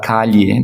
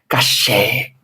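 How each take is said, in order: First: The double-L is pronounced like a 'y' sound. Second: The double-L is pronounced like an 'sh' sound. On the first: This is the general Spanish way, not the Argentine one. "não vão falar calle" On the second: This is how people in Buenos Aires say it. "vão falar caché, cheva, assim, começa sh"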